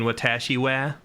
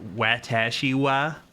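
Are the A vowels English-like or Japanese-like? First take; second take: Japanese-like; English-like. First: The A vowels are open, Japanese-style sounds. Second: The A vowels are flat, hard English sounds. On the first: "I mean" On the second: "use the hard A sound for Japanese words"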